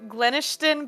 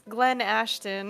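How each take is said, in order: First: The middle of the name sounds like 'ish'. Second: The middle of the name sounds like 'ash'. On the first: The speaker calls it wrong. "I thought it was Glenishton" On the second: The speaker calls it right. "but it's Glen Ashton"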